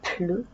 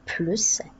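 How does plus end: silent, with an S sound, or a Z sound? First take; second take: silent; S sound. First: The final S is silent. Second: The word ends in an S sound. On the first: "sans prononcer le S" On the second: "avec S"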